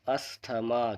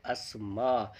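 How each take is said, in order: First: "अस्थमा" said with a clear th sound; the common mistaken "अस्थमा", th pronounced; wrong pronunciation. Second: "अस्मा" with the th left silent; correct pronunciation. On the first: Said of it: "इसका pronunciation बिल्कुल गलत है". (गलत उच्चारण "अस्थमा", थ के साथ) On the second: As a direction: say "अस्मा", no th sound. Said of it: "इसका सही प्रोनाउंसिएशन होता है". (सही उच्चारण "अस्मा", थ बिना बोले) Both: Shown as a demonstration.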